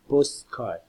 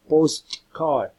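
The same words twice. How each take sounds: First: The t sound before the k is dropped. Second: The t sound before the k is pronounced.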